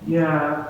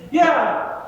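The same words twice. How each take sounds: First: Low, grudging yeah from Jimmy; sullen kid's yeah. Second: "Yeah" jumps up high and eager; eager kid's yeah. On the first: Jimmy admits it to the adult, a low grudging yeah. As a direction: mumble "Yeah" like a caught kid admitting it. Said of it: "Jimmy's gonna say". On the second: The other kid chimes in eagerly, a high quick yeah. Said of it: "the other kid's gonna say". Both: Retold or imitated.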